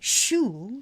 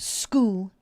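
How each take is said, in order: First: The word begins with a soft sh sound. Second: The word begins with a hard sk sound. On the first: The speaker calls it wrong. "we don't say shul" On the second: The speaker calls it right. "S C H, same pronunciation. Sk"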